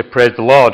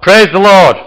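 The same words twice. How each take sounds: First: Said in the usual way. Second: Loud, high, drawn-out shout. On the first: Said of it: "if you say". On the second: Acted. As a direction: shout it out as a rider's command.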